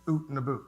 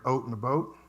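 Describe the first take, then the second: First: The vowel in out sounds like oo. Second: The vowel in out sounds like oh. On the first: This is how outsiders think Canadians say it. The speaker calls it wrong. "they think the Canadians say something like oot and a boot" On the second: This is how locals actually say it. The speaker calls it right. "I figured people say more of like oat and a boat"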